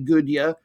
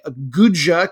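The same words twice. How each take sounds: First: The j is not said as an English j. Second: The j is said as an English j. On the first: "could be Gudja" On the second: "I'm going to pronounce it with our J"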